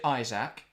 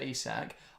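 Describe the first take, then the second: First: The name is said like English Isaac. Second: The name is not said like English Isaac. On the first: Other people say it this way. "I've heard people say Isaac" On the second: This is how the speaker says it. "Because I say Alexander Isak"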